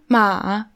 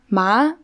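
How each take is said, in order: First: The pitch dips down then goes up. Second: The pitch rises like a question. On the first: "also so runter, hoch" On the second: "dann so als Frage quasi"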